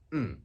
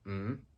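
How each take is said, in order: First: The pitch falls sharply from high to low. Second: The pitch rises from mid to high. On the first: "the fourth one is a falling tone" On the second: "rising tone"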